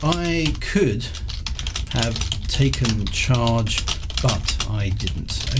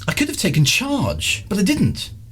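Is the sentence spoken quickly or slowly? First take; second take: slowly; quickly. First: The sentence is spoken at a slower, careful pace. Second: The sentence is spoken quickly with reduced words.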